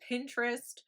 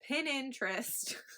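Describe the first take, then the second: First: The word is said without an extra syllable. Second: The word is said with an extra syllable. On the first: The speaker calls it right. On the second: The speaker calls it wrong.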